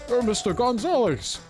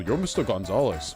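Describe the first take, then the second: First: It is said in a put-on character voice. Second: It is said in his normal voice.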